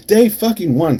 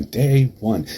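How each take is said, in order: First: Loud, high burst on "Day fucking one"; outraged emphasis. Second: Said in the usual way. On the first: Acted. Repeats the phrase, escalating.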